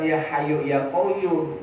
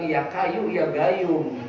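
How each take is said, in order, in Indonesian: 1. Nama pertama diawali dengan bunyi H yang berhembus. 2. Nama pertama diawali dengan bunyi K yang keras. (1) "Bukan ya hayu ya koyum" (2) "saking kagak pasehnya"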